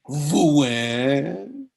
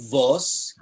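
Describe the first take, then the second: First: The word is said in a Lodz accent. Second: The word is said in a Litvak accent.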